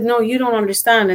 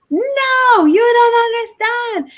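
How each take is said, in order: First: Said in the usual way. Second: Much higher, drawn-out yell; retold yell. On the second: Upset woman insisting she is not understood, yelling. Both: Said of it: "then she yelled at me".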